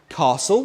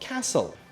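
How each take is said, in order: First: It is said in the target British accent. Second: It is said in a different accent. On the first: The speaker calls it right. "if you want to steal Tom Holland's accent" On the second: The speaker calls it wrong.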